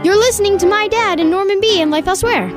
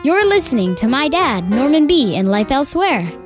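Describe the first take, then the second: First: It is said at a faster pace. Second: It is said at a slower pace.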